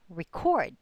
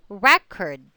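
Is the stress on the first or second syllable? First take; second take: second; first. First: The stress is on the second syllable. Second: The stress is on the first syllable.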